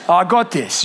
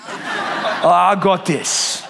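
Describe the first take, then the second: First: Said in the usual way. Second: "I got this" drawn out slowly through a laugh. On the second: Retold or imitated. Dad to wife, slowly reassuring through a laugh. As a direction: stretch out "I got this" with a chuckle.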